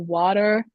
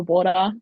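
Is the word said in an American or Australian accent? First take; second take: American; Australian. First: It is said in an American accent. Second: It is said in an Australian accent. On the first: "Americans go water" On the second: "we just say water"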